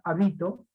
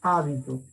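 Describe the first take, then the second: First: The stress is on a later syllable. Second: The stress is on the first syllable. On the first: The speaker calls it wrong. "no voy a pronunciar habito" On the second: The speaker calls it right. "es una palabra esdrújula"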